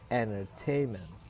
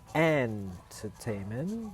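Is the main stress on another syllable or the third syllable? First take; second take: third syllable; another syllable. First: The main stress is on the third syllable. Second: The main stress is not on the third syllable. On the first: The speaker calls it right. "tapi entertainment" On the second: The speaker calls it wrong. "Jadi bukan entertainment"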